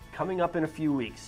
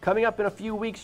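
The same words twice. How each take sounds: First: It is read in an overly dramatic, emotional way. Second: It is read in a plain, undramatic way.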